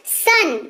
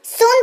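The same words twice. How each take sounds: First: सन said with a short a vowel, like sun; correct pronunciation. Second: सोन said with a long o, the wrong way; wrong pronunciation. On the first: Teacher models सन for students, short a sound. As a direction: say सन short and open, not सोन. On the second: Teacher shows the wrong reading सोन, long o. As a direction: deliberately mispronounce it as सोन with an o. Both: Shown as a demonstration. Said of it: "सोन तो नहीं पढ़ते इसको".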